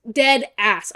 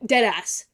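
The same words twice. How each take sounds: First: Louder, landing hard on "Dead"; louder repeat. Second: Said in the usual way. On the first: Real, not acted. Insisting to viewers she means it, louder. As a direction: punch "Dead" up for emphasis.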